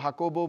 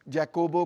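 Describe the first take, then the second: First: The name begins with an H sound. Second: The name begins with a J sound.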